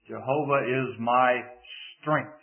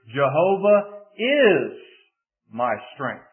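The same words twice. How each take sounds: First: The word strength is stressed. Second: The word is is stressed. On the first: The power comes from God, not from oneself. "if we place the emphasis on the fourth word" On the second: The strength is present right now. "if you shift the emphasis to the second word"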